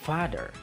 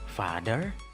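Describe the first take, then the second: First: The pitch is high on the first syllable. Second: The pitch is high on the second syllable. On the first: "The first underlined syllable is high pitch" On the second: "The second underlined syllable is high pitch"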